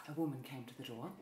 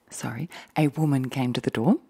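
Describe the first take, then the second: First: Quick, much softer half-whispered aside; soft hurried aside to viewers; muttered aside. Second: Said in the usual way. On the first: Real, not acted. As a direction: rush it under your breath before correcting.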